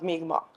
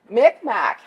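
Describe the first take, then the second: First: The name is said with its native pronunciation. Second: The name is said with an anglicized pronunciation. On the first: It is how the people refer to themselves. The speaker calls it right. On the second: It is an outside name no longer used for the people. The speaker calls it wrong.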